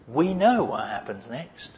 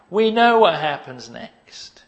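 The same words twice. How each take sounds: First: Said in the usual way. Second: Know leaned on, slower, louder and higher; stress on know. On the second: Acted. Jesus insisting to his Father, stressing know. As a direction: press the word know slowly.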